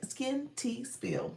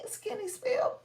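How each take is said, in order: First: The name is said slowly, each part separate. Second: The name is said quickly, running together. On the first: The speaker calls it right. "I always have to say it slow" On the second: The speaker calls it wrong. "I say it fast and it don't sound right"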